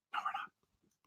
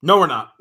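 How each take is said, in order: First: Breathy whisper, almost silent. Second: Said in the usual way. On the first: Acted. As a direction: whisper it like a secret aside. Teasing whisper, then repeated aloud.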